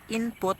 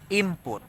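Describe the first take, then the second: First: The sound before P is a clear N. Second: The sound before P is like an M.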